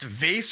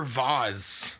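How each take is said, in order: First: "vase" rhyming with "face"; pronounced "vace". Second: "vase" with an open "ah" and a Z ending; pronounced "vahz". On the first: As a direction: say "vase" with a long A and an S ending. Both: Shown as a demonstration. Offering two pronunciations to choose.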